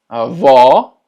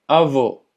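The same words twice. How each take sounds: First: Avó with open, loud final o. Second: Avó said with a closed final o; closed avô. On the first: Teacher repeats grandmother, open avó. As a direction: open the stressed ó of avó wide. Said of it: "el cual es abierto". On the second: Teacher repeats grandfather, avó with closed o. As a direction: round and close the last vowel of avó. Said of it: "que la pronunciación sea cerrada". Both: Shown as a demonstration.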